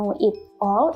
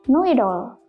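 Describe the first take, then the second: First: Each word is said separately and stiffly. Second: The words run together in one smooth link. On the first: The speaker calls it wrong. "itu sangat kaku" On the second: The speaker calls it right. "kita bisa menggabungnya"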